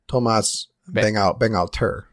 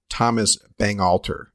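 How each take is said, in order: First: The name is said with a French pronunciation. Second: The name is said with an American pronunciation. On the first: The speaker calls it right. "they're French. You say it differently" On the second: The speaker calls it wrong. "like an American prick"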